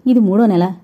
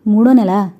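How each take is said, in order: First: Said in the usual way. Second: Startled echo, louder on మూడో; surprised. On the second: A narrator's reading. Wife hearing from landlord of overdue rent, surprised. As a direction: repeat మూడో నెల as an astonished question. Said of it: "ఆశ్చర్యపోయింది".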